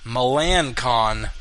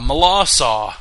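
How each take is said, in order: First: The name ends with a hard 'kon' sound. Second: The name ends with a 'saw' sound. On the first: "It's spelled Melancon. M E L A N C O N" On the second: "apparently the pronunciation is Malasaw"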